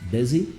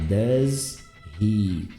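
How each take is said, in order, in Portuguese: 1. As duas palavras são ligadas suavemente. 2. As duas palavras são ditas claramente separadas. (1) "E aí eu consigo juntar" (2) "Muito separado"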